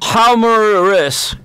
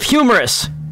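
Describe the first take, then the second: First: The word is pronounced in an unusual way. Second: The word is pronounced in the usual way. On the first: The speaker calls it wrong. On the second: The speaker calls it right.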